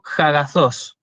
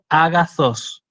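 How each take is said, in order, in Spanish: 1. La palabra empieza con un sonido h aspirado. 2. La palabra empieza directamente con una vocal simple. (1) "No digo jagazós" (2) "ahí yo no hago una aspiración"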